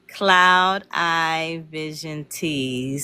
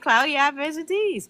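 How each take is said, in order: First: Cloud and Eye are said as separate words. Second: Cloud and Eye run together like cloudy. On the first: The speaker calls it right. "I want to get it right" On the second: The speaker calls it wrong. "I be saying Cloudy Eye Vision Teas"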